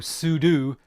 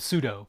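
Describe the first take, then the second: First: The last syllable sounds like the word do. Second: The last syllable does not sound like do. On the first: It matches what the name stands for. The speaker calls it right. "Sudo stands for super user do. So sudo makes sense" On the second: It is the old habit. The speaker calls it wrong. "instead of sudo"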